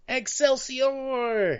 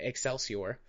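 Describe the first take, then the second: First: The word is exclaimed with excitement. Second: The word is said flatly, in passing.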